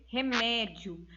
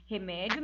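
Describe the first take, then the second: First: "remédio" drawn out slowly, each syllable separated, re-mé-dio. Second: Said in the usual way. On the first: Shown as a demonstration. Teacher splitting "remédio" into syllables for students, slow and deliberate. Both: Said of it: "nós temos três sílabas".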